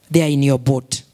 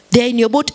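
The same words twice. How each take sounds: First: Said in the usual way. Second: Louder repeat. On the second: Acted. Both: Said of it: "repeated louder".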